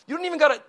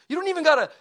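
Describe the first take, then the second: No difference in how they are said.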